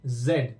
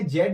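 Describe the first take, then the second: First: जेड as "zed", with light vibration; correct buzzing Z. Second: जेड as "jed", no buzz; wrong Z, plain j. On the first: Teacher showing the nukta sound, correct buzzing Z. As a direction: say जेड with a voiced z, falling. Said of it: "हल्का सा vibration". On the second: Teacher showing the reading to avoid, wrong Z with plain j. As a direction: say जेड with a hard j as in jam. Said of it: "जेड नहीं पढ़ेंगे". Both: Shown as a demonstration.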